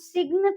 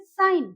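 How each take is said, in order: First: The g is pronounced inside the word. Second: The g is silent inside the word. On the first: The speaker calls it wrong. "सिग्न तो नहीं बोलेंगे" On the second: The speaker calls it right. "जी जो है वो silent हो गया, तो हम उसको बोलेंगे साइन"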